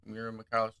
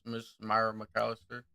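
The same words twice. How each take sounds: First: "Myra" said as MEER-uh; corrected name. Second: "Myra" said as MY-ruh; mispronounced name. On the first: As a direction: say "Myra" with an ee sound, correcting yourself. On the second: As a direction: say "Myra" with a long eye vowel. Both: Real, not acted. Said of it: "I apologize".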